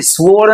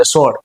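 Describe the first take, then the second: First: સ્વોર્ડ with the w sounded, "swo-ord"; mispronounced W. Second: સ્વોર્ડ said short, close to "sord"; barely touch the W in સ્વોર્ડ; nearly silent W. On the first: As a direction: draw out a wrong "swo" in સ્વોર્ડ. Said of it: "સ્વોર્ડ નથી". (સ્વોર્ડમાં 'વ' ખેંચીને ખોટો ઉચ્ચાર) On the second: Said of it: "ડબલ્યુ થોડો ઘણો બોલાય છે". (સ્વોર્ડમાં 'વ' લગભગ silent, 'સોર્ડ') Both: Shown as a demonstration.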